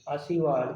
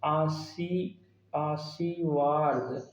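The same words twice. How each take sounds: First: Said in the usual way. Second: "आशीर्वाद" very slowly, part by part; drawn-out reading. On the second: Shown as a demonstration. Teacher reading out a spelling option to check, "आशीर्वाद" slowly syllable by syllable. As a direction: stretch each syllable of "आशीर्वाद". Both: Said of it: "वर्तनी की दृष्टि से देखिए क्या".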